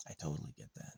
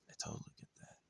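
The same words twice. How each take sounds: First: Said in the usual way. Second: "I totally get that" whispered, much softer. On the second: Shown as a demonstration. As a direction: breathe it out as a toneless whisper. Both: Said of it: "repeated in whisper".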